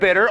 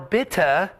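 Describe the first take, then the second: First: It is said in a plain American accent. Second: It is said in a British accent.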